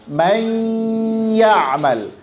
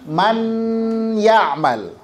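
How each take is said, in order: First: The n sound merges into the following y. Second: The n sound is pronounced clearly and separately. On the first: The speaker calls it right. "nun sukun ketemu ya dibaca" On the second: The speaker calls it wrong. "bukan dibaca ... Itu izhar"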